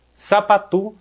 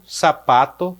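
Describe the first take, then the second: First: Sapatu said with a final u, sa-pa-TU; Guarani pronunciation. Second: Said in the usual way. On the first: Shown as a demonstration. Teacher shows Guarani loanword to students, Sapatu with final u. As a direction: give Sapatu its Guarani u ending.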